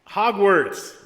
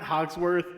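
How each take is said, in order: First: The name is said as Hogwarts. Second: The name is said as Hogsworth. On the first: The speaker calls it right. "Hogwarts, not Hogsworth" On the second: The speaker calls it wrong. "not Hogsworth"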